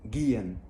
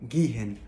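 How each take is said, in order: First: The h in the middle is silent. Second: The h in the middle is pronounced. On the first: The speaker calls it right. "دايما حاول تختصر الكلام ده كله واعمل gehen" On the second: The speaker calls it wrong. "اوعى تنطق حرف ال- الها اللي في النص، لا مثلا ما تقولش gehen"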